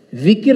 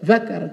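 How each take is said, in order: First: The word is said with 'i' vowels, zikir. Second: The word is said with 'a' vowels, zakar. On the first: It means remembrance of God. The speaker calls it right. "Kalau zikir berzikir" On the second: It means the male organ. The speaker calls it wrong. "kalau zakar itu kemaluan"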